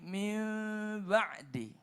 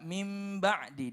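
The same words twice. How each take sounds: First: The lips only nearly close on the m. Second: The lips close fully on the m. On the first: The speaker calls it right. "mimnya tidak sampai full" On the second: The speaker calls it wrong. "membaca mim ba'di ditutup"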